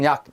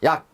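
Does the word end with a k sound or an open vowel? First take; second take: k sound; k sound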